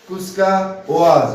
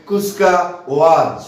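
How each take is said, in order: No difference in how they are said.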